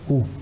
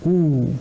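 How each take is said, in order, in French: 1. La voyelle est courte. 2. La voyelle est longue. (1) "au lieu de ou" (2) "la prononciation va être prolongée et on dira ou"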